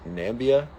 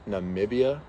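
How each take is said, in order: First: The middle 'i' syllable is dropped. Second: The middle 'i' syllable is pronounced. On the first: "Is the I silent" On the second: "pronounce it?"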